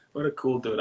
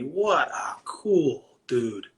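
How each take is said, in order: First: Said in the usual way. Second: Breathy hushed whisper, slow and drawn out. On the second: Real, not acted. Admiring a skilled finisher, whispered slowly. Fond repeat about a finisher.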